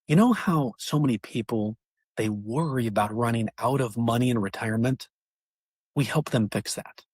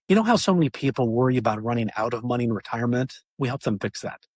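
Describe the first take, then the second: First: It is spoken lower in pitch and slower. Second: It is spoken at a normal, quicker pace.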